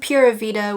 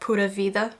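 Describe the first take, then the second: First: It is pronounced with English sounds. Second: It is pronounced with Portuguese sounds. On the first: "it's weird to say that in English" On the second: "in Portuguese you say it like Pura Vida"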